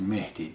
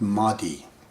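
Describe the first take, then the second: First: The first vowel sounds like 'eh'. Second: The first vowel sounds like 'ah'. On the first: The speaker calls it right. "but it is Mehdi" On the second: The speaker calls it wrong. "you guys call it Mahdi"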